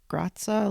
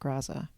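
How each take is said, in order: First: The name is said with Italian pronunciation. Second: The name is said with English pronunciation.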